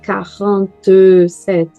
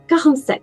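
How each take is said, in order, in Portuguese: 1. A palavra numérica é pronunciada com quatro sílabas. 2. A palavra numérica é pronunciada com três sílabas. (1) "não vai ser quarante e sete" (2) "Três sílabas. Não vai ser quatro"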